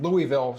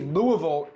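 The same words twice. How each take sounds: First: The name is pronounced the way outsiders say it. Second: The name is pronounced the way locals say it. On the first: The speaker sounds like someone from elsewhere. The speaker calls it wrong. "not Louisville" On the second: The speaker sounds like someone from there. The speaker calls it right. "Make sure you say Louisville ... so you sound actually like a local"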